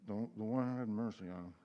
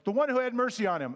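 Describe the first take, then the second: First: It is mumbled quietly and unclearly. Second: It is said loudly and clearly.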